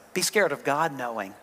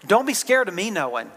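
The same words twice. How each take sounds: First: Quiet, grave reminder; suddenly serious. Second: Light and amused, half laughing; a playful warning through a laugh; laughing lightly. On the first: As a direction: drop lower and softer, solemn. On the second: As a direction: tease it with a chuckle. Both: Real, not acted. Joking, then turning serious.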